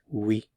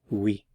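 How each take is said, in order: Both takes have the same delivery.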